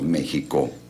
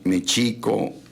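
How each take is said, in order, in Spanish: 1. La consonante del medio es una h aspirada. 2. La consonante del medio es un sonido sh. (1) "que nosotros le decimos México, pues, con J" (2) "sino con el sonido S H, como champú en inglés"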